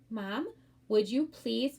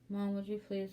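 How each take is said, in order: First: The words are spoken clearly in a strong voice. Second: The words are mumbled and hard to understand. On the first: The speaker calls it right. "your voice is strong and respectful" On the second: The speaker calls it wrong. "if you mumble the the words"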